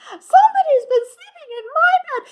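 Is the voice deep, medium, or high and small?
high and small. It is said in Baby Bear's small voice.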